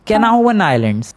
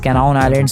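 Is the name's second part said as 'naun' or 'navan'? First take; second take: navan; naun. First: The name ends in two syllables 'na-van'. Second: The name ends in a single syllable 'naun'. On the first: The speaker calls it right. "उसका real pronunciation है कैनावन" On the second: The speaker calls it wrong. "मैं पिछली बार उस island का नाम कैनाउन islands बोल रहा था, बट नहीं"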